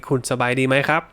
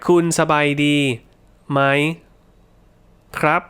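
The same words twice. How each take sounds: First: Rattled off quickly, tones automatic; fast native pace. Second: Slow, word by word, thinking about each tone; slow careful tones. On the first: Teacher showing how Thai sounds when said quickly. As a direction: run it together at full speed. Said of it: "So when, when I'm speaking fast". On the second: Teacher showing learners the slow careful version. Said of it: "But if I'm speaking slowly". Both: Shown as a demonstration.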